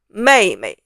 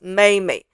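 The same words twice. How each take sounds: First: The second syllable is in the light neutral tone. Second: The second syllable is in the high first tone. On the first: The speaker calls it right. "It should be mei mei" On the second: The speaker calls it wrong. "She made it sound like the first tone"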